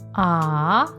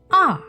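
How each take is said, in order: First: The pitch rises from mid to high. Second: The pitch falls sharply from high to low. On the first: "This tone requires your voice to go up" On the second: "Just let your voice go all the way down"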